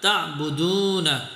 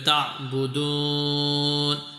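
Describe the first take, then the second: First: The word ends with a final vowel. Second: The word ends on the consonant n.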